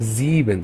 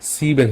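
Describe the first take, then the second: First: The word begins with a z sound. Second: The word begins with an s sound. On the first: The speaker calls it right. "আমরা এখানে বলবো জিবেন" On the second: The speaker calls it wrong. "অ্যাস বলে সিবেন হয়ে যেত"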